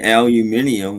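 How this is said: It is said in a British pronunciation. "Brits say aluminium"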